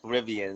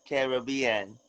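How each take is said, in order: First: The word is said plainly, without extra pronunciation. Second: The word is said with an accented, extra pronunciation. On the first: "we never extra pronounced it" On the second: "with the accent"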